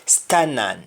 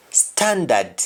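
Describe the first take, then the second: First: STANAN with no D; Jamaican pronunciation. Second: STANDARD with both Ds sounded; English-style STANDARD, full "nd"; English pronunciation. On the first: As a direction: drop the Ds, say STANAN. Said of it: "You only stop at N". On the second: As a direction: say STANDARD as "stan-dad". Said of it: "ends with N D in English". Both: Shown as a demonstration.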